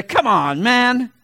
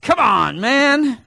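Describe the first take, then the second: First: Loud incredulous, rising on man; Chris Carter catchphrase. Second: Incredulous, louder; Chris Carter catchphrase. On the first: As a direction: come on, man as doubting TV pundit. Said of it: "Chris Carter will be sitting there". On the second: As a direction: pitch jumps high on man, mocking disbelief. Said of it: "Chris Carter". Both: Retold or imitated.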